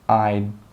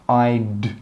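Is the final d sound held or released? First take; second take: held; released. First: The final d is held with no air. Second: The final d is released with a puff. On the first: The speaker calls it right. "We stop the air from coming out and we say I'd" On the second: The speaker calls it wrong. "note here how we do not say I'd"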